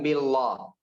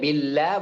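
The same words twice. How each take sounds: First: The l sound is thick and heavy. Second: The l sound is thin and light. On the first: The speaker calls it wrong. "bukan billah" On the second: The speaker calls it right. "Lafzul jalalah itu tipis"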